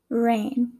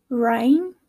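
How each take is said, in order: First: "rain" with a plain "ay" vowel; Midwestern pronunciation. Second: "rain" with a wide "rye-n" glide; Southern pronunciation. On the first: Teacher contrasting accents, "rain" said Midwestern as "rayn". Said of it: "in my Midwestern accent". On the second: Teacher contrasting accents, "rain" said Southern as "rhine". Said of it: "in the Southern accent". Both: Shown as a demonstration.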